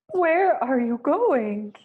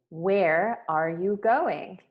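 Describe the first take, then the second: First: It is said in a frightened way. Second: It is said in a calm, neutral way.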